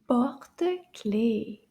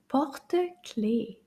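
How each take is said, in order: The two takes are said the same way.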